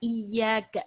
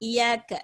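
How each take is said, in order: First: The middle consonant is pressed and held strongly. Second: The middle consonant is said lightly, not held. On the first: The speaker calls it right. "அழுத்தம் கொடுக்கணும்" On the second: The speaker calls it wrong. "இப்படி மேலோட்டமா ஓதிட்டு போயிடக்கூடாது"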